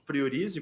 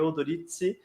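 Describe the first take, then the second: First: The name is said with Brazilian Portuguese sounds. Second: The name is said with Italian sounds. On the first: This is the customary everyday way of saying it. "eu chamo Priorize, porque é costume" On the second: This is how it would be said in Italy. "a pronúncia italiana, em tese, seria Odorizzi"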